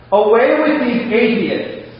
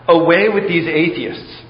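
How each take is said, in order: First: High, slow, ringing shout to heaven. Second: Said in the usual way. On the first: Acted. Old prisoner shouting back at the hostile crowd, loud and slow. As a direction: call it out loud and slow to the sky. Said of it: "and shouted". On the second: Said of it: "simply shout".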